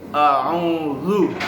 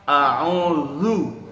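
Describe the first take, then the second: The two takes are said the same way.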